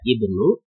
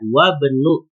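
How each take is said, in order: First: The word starts with a pronounced initial vowel. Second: The initial vowel is dropped, linking to wa. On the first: The word stands at the start of the phrase. "kalau yang ini dibaca ibnu" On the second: The word follows the conjunction wa. "yang kedua dibaca wa benu"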